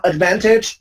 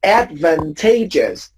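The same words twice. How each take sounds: First: Advantage stressed on VAN; stress on second syllable. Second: Advantageous with main stress on TA, ad-van-TAY-jus; lower-pitched model of ad-van-TAY-jus; shifted stress. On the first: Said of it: "it changes the stress too". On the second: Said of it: "When you change the form". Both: Shown as a demonstration.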